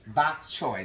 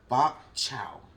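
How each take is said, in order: First: The second word ends with an 'oy' sound. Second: The second word ends with an 'ow' sound. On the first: The speaker calls it right. "That's it" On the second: The speaker calls it wrong. "how do you pronounce it?"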